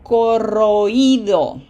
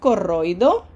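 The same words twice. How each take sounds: First: The stress falls on the i itself. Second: The stress falls on the vowel before i. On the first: The speaker calls it right. "We want" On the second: The speaker calls it wrong. "We don't want"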